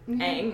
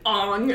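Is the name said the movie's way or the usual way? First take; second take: usual way; movie's way. First: The name has its usual pronunciation. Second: The name has the movie's pronunciation.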